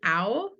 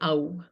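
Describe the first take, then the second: First: The vowel sounds like American English 'ow'. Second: The vowel is said with an authentic Indian quality. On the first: "the American version would be ow" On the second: "if you were to pronounce it authentically, it would be ow"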